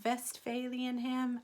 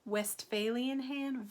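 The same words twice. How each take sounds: First: German-accented "Westphalian", starting on V; slow, higher German-accented English, V for W. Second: "Westphalian" with an English W, slow and higher; English pronunciation. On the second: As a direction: say "Westphalian ham" the English way, starting on a rounded W. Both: Shown as a demonstration. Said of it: "depends on who's speaking".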